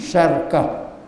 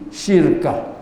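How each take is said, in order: First: It has two syllables, with an a vowel first. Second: It has two syllables, with an i vowel first. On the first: "baca dengan apa sukun ra patah shin" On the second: "baca dengan kasrah shin"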